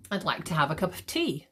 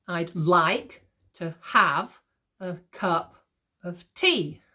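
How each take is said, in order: First: Said in the usual way. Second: Very slow beat, punching "like", "have", "cup", "tea"; "I'd LIKE to HAVE a CUP of TEA", drawn out in pieces; exaggerated iambic stress. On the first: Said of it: "I'm obviously exaggerating this". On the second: Shown as a demonstration. Teacher exaggerating so students can hear, heavy iambic stress. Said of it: "I'm obviously exaggerating this so you can hear it".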